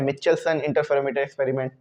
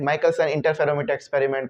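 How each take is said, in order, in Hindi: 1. नाम में 'ch' की आवाज़ है, 'Michelson'। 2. नाम की शुरुआत 'k' की आवाज़ से होती है, 'Maikelson'। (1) "कुछ बोलते हैं मिचेल्सन" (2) "जैसे माइकलसन पढ़ते हैं कुछ लोग"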